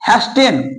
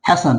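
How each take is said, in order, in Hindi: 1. बीच में t की ध्वनि का उच्चारण किया जाता है। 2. t की ध्वनि पूरी तरह छोड़ दी जाती है। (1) "सब इसे पढ़ता है हैस्टेन" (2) "आज से इसे अब क्या पढ़ेगा"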